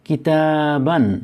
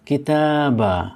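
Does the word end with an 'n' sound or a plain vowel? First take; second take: n sound; plain vowel. First: The word ends with an '-an' sound. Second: The word ends with a plain '-a' vowel. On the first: The speaker calls it wrong. "আমরা এটিকে কিতাবান পড়ব না" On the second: The speaker calls it right. "আমরা পড়ব কিতাবা যখন সাকিন করব"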